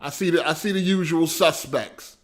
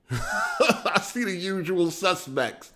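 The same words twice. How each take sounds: First: Said in the usual way. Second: Laughing. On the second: Real, not acted. Repeats greeting laughing.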